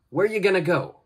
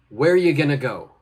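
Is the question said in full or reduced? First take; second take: reduced; reduced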